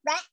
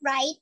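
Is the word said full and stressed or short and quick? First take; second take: short; full. First: The word is clipped, quick and short. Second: The word is full, careful and stressed. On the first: This is how people say it in real life. "ใน real life มันบอกว่า rat" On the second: This is how it is taught in pronunciation lessons. "ใน English pronunciation มัน right"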